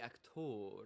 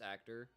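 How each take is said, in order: First: It is said in a posh French accent. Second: It is said in a plain English accent.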